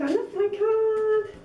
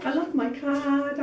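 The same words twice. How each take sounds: First: A second, giddier I love my card; delighted squeal. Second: Said in the usual way. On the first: Real, not acted. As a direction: gush over the card.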